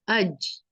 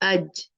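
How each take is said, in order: First: The j sound is soft with air in it. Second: The j sound is hard and firm. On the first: The speaker calls it wrong. "वो जीम में हवा डाल देते हैं" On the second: The speaker calls it right. "जीम में जो है थोड़ी सख्ती है"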